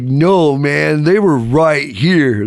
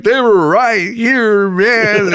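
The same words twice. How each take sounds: First: Higher, drawn-out stoner protest; imagined stoner voice. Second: High, drawn-out tearful stoner wail; mock sobbing. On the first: Retold or imitated. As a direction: plead slowly like a baked hippie. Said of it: "he didn't talk like that". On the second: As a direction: wail slowly like a heartbroken pothead. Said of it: "Tears are coming".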